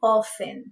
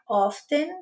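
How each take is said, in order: First: The T sound is left out entirely. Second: The T sound is clearly pronounced. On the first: "os americanos eles omitem o som do T" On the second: "Ao invés de pronunciar often"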